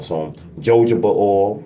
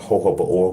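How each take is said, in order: First: The word begins with a J sound. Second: The word begins with an H sound. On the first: This is the speaker's own way of saying it. "as I like to call it" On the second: This is how other people say it. "they pronounce the J as a H"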